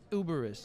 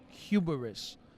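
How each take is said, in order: First: The word begins without any h sound. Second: The word begins with an audible h sound. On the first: The speaker is from New York. "they're not from New York, so they don't say uberous" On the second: The speaker is not from New York. "they're going to say it with an H"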